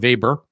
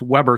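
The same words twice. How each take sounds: First: The name is said with its original German pronunciation. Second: The name is said with an anglicized pronunciation. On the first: The speaker calls it right. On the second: The speaker calls it wrong.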